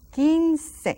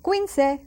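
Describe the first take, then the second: First: "quince" as KEEN-seh, higher and louder; silent U. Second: "quince" as KWEEN-seh, with a W; sounded U, mispronounced. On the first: Teacher correcting the mistake for students, "quince" said KEEN-seh. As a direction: say "quince" with a plain K, no W. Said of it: "that U is silent". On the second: Teacher showing students what to avoid, "quince" said KWEEN-seh. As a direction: wrongly voice the U in "quince". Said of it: "Not quince". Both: Shown as a demonstration.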